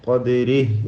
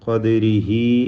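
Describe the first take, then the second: First: The word ends on a bare h consonant. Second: The word ends on a lengthened i vowel. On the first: The reciter stops at this word. "വഖഫ് ചെയ്യാം സുക്കൂൻ നൽകിക്കൊണ്ട്" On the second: The reciter joins it to the next words. "ചേർത്തോതുമ്പോൾ മദ്ദുസ്സില സൂറ നൽകി ഖദ്രിഹി എന്ന് ദീർഘിപ്പിക്കേണ്ടതാണ്"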